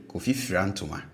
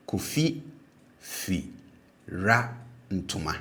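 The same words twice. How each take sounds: First: Said in the usual way. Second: "Kofi fi ra ntoma" split into syllables, "fi" low then "ra" high. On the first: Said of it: "make this clearer". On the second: Shown as a demonstration. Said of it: "low tone, and then the remaining syllable will be pronounced with a high tone".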